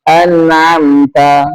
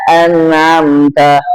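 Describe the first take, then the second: The two takes are said the same way.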